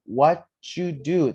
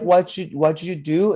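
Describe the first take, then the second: First: "What you do" slowly in three sounds, what-ju-do; loud, slow teacher model of "What you do" with a "ju"; "What you do" stretched into three separate sounds; corrected model. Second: "What you do" said loud and high as a counterexample; "What you do" as the mistaken take, higher and louder; wrong version. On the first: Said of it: "is more like". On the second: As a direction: show "What you do" the wrong way, words not split into three sounds. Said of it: "Not like". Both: Shown as a demonstration.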